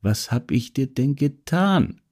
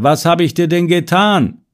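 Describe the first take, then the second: First: Asked again, quieter and subdued; a soft, worried repeat of the question; hushed, helpless question; quiet pleading. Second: Higher and a bit louder, pressing the question; the plea starts to swell; mounting, insistent question; rising louder. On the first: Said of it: "fragte er noch einmal". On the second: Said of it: "Und dann lauter und lauter". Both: Acted.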